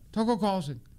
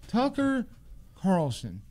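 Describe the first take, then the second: First: The name is said fast. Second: The name is said slowly.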